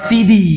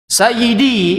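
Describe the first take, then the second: First: The word is shortened to two syllables. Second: The word is said in full, three syllables. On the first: This is the everyday colloquial usage. "bahasa pasarannya" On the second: This is the formal usage. "kalau bahasa resminya itu"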